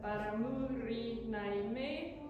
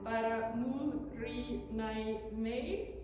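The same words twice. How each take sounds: First: The phrase is said more quickly and smoothly. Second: The phrase is said slowly, syllable by syllable.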